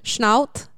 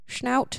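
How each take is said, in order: First: It is said in a put-on German accent. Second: It is said in a plain, ordinary accent.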